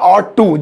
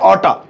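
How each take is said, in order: First: The two words are said separately and fully. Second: The words are blended into one reduced form. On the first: "तो वो हो जाएगा ऑट टू" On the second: "you हटा दे ऑटा"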